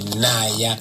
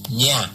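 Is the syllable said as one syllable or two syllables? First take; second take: two syllables; one syllable. First: It is split into two separate syllables. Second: It is said as a single gliding syllable. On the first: This is how English speakers say it. The speaker calls it wrong. "English say Naya" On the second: This is how the name is really said. The speaker calls it right. "N Y A is Nya"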